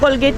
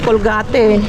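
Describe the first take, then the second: First: It is said with English pronunciation. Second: Every letter is pronounced as written, Spanish-style.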